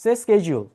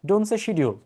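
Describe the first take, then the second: First: Schedule said as SKED-jool, starting with a hard sk; American SKED-jool for schedule; correct schedule. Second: Schedule said as SHED-yool, with a sh sound and a y glide; the avoided shi-dyul way of saying schedule; wrong schedule. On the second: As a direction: contrast take with sh in schedule. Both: Shown as a demonstration.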